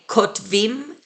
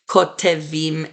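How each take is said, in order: First: The vowel before the ending is reduced. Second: The vowel before the ending is full. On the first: The speaker calls it right. "the last syllable before the plural suffixes gets reduced to a schwa. So we say" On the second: The speaker calls it wrong.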